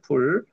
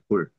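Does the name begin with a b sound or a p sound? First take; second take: p sound; b sound. First: The name begins with a p sound. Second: The name begins with a soft b sound. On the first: This is the name as spelled in English. "이름은 풀입니다" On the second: This is the name as the Korean Bible renders it. "발음을 불이라고 한 거예요"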